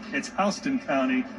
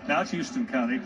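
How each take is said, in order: First: Houston begins with the sound of 'house'. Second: Houston begins with the sound of 'hue'. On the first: The speaker calls it right. "I want to say correctly" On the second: The speaker calls it wrong. "I mispronounced it earlier"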